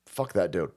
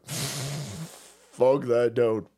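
First: Said in the usual way. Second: Very slow stretched repeat; drawn-out repeat. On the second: Shown as a demonstration. Repeating his curse at LeVar Burton, very slow and drawn out. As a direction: drag every word of it out.

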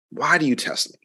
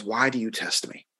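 First: A mild note of exasperation; exasperated. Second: Said in the usual way. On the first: Retold or imitated. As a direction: let your patience wear thin on the repeat. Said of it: "like, just, like, exasperation in, in, in his voice". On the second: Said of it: "exasperation in his voice".

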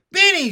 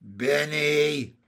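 First: Very high, very loud exclamation; shocked cry. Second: Loud, drawn-out amused exclamation; laughing cry. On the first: Jessie catches Benny cutting the dog's hair, shocked cry. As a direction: shout the name in alarm. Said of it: "she cried". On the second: Jessie reacts to Benny's tail plan, amused cry. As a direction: call the name out long, mock-scolding. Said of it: "cried Jessie, laughing". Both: A narrator's reading.

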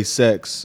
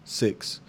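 First: "sex" for six, with an e vowel; six turned into "sex", Kiwi style; New Zealand pronunciation. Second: "six" with a short i vowel; "six", not "sex", Aussie style; Australian pronunciation. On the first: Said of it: "New Zealanders say sex". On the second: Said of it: "Aussies say six". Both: Shown as a demonstration.

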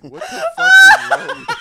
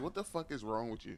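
First: Very high, loud laughing yell; incredulous shout. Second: Said in the usual way. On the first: Retold or imitated. Storyteller replaying outburst before hanging up, incredulous shout.

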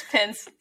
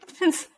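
First: Said in the usual way. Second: Higher, laughing repeat. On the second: Real, not acted. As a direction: toss it off through a laugh.

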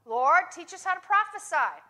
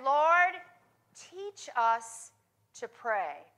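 First: Mock misquote with HOW stressed; wrong version. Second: Corrected quote, slow and falling; right version. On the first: Preacher tests the congregation with a wrong quote, stressing "how". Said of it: "They didn't say that, did they?". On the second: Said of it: "They said". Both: Shown as a demonstration.

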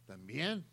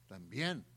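The two takes are said the same way.

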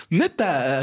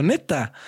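First: Drawn-out sarcastic "Neta". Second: Short falling sarcastic "Neta"; dry mock agreement. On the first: Retold or imitated. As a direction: pretend to be impressed. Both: Boy answering the bully's warning, sarcastic. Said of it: "como sarcástico".

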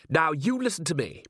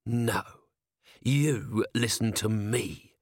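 First: Higher-pitched, bossy factory owner; indignant boss taking charge; bossy order. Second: Controlled, drawn-out hiss; menacing hiss. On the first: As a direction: lay down the law, voice lifted. Factory owner starts ordering Vimes. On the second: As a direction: turn the order back on him, slowly. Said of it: "hissed Vimes". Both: A narrator's reading.

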